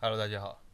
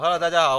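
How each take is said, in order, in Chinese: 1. 声音听起来犹豫，缺乏自信。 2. 声音听起来笃定，充满自信。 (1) "就是我觉得太没自信那种" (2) "很棒"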